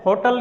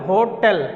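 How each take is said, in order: First: "होटल" ending in short "tal"; weak second vowel in "होटल", "ho-tal"; wrong pronunciation. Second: "होटल" with clear "tel" ending; corrected pronunciation. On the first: Teacher telling what not to say, wrong "ho-tal". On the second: Teacher replacing the wrong word, corrected "ho-tel". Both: Shown as a demonstration. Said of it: "होटल नहीं बोलना है".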